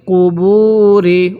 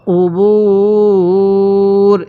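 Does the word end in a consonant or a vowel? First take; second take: vowel; consonant. First: The word ends with a short i vowel. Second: The word ends on the r consonant. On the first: The reading continues without a stop. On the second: The reading stops at this word.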